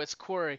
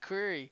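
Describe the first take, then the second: First: The name sounds like the name Corey. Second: The name sounds like the word query. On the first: The speaker calls it right. "no, it's Query" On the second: The speaker calls it wrong. "I keep saying it like that"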